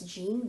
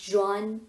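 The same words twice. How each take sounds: First: It is said like the common English name. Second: It is said unlike the common English name. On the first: The speaker calls it wrong. "Usually we pronounce this as Jean" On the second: The speaker calls it right. "but this is Jean Piaget"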